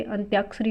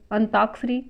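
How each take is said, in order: First: अंत्याक्षरी with a y-glide after t; correct form. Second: अंताक्षरी said with a plain "taak", no y-glide; wrong form. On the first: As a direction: say अंत्याक्षरी as ant-YAAK-sha-ri. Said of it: "अंत्याक्षरी होता है". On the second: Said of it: "अशुद्ध है". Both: Shown as a demonstration.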